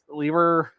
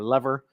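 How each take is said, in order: First: It is said with a non-American pronunciation. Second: It is said with an American pronunciation.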